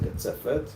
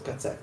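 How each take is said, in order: First: The word ends with a clear T sound. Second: The word ends without any T sound. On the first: The speaker calls it wrong. "don't say katzefet" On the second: The speaker calls it right. "The T is silent"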